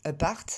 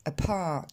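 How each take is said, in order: First: "apart" with unaspirated p and French r; French-accented "apart"; prononciation française. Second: "apart" with a puff of air after the p; p aspiré. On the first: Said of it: "On va pas dire". (« apart » à la française, sans souffle) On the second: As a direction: explode the p in English "apart". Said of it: "mais on va dire". (« apart » avec un p soufflé) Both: Shown as a demonstration.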